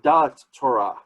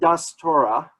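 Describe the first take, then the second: First: The first word ends with a t sound. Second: The first word ends with an s sound.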